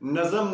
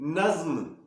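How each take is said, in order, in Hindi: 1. इसमें एक अतिरिक्त स्वर आता है, इसलिए दो अक्षर। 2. यह एक बंद अक्षर की तरह बोला जाता है। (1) "नज्म नहीं" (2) "नून के ऊपर जबर और जोए के ऊपर जज्म"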